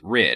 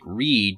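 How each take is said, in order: First: The vowel is short, as in 'rid'. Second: The vowel is long, as in 'reed'. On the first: The speaker calls it right. "you pronounce it Rid" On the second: The speaker calls it wrong. "you might th- have thought it was like Reed, but it's not"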